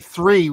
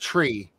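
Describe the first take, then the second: First: The word begins with a soft th sound. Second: The word begins with a hard t sound. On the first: "we don't say three" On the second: "we say tree, like tree"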